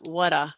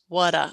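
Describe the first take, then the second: First: The R sound at the end is dropped. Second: The R sound at the end is dropped.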